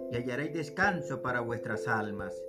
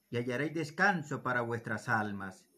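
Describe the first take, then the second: No difference in how they are said.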